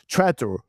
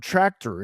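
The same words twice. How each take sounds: First: "tractor" with the middle squashed, like "tratter"; Georgia accent tractor. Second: Said in the usual way. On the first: Retold or imitated. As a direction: say "tractor" the rural Georgia way, swallowing the c. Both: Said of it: "that's how he would say it".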